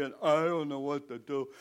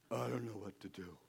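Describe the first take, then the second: First: Baffled cry out to God, voiced up; distressed prayer. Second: Low, hushed, lost Moses; quiet helplessness. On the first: Moses praying at the blocked sea, crying out helplessly. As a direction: plead helplessly, as acted prayer. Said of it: "he starts to pray". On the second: Acted. Moses staring at the ocean, quietly at a loss. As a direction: say it softly to yourself, stumped. Moses alone before the sea, stuck.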